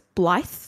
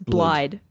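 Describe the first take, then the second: First: The word ends with a th sound. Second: The word ends with a d sound. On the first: The speaker calls it right. "but it's blithe because D-D in Welsh is a th sound" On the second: The speaker calls it wrong. "It looks like it's blide"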